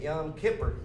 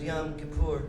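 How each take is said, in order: First: It is said the way people say it back home. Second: It is said the way others pressured him into. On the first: "Where I come from, ... we say Yom Kippur" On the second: It follows how New Yorkers told him to say it. "I'm gonna stop saying it like that. I've been pressured into saying like that"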